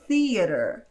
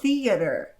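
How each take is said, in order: Both takes have the same delivery.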